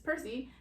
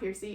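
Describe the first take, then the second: First: The first syllable sounds like 'per'. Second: The first syllable sounds like 'peer'. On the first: The speaker calls it right. "it is Percy" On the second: The speaker calls it wrong. "apparently it's not Piercy"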